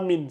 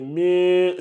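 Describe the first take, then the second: First: The n is pronounced fully and clearly. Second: The n is hidden into a nasal sound. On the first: The speaker calls it wrong. "j'ai entendu min, c'est pas min" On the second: The speaker calls it right. "c'est min, c'est c'est un ikhfa qui est là"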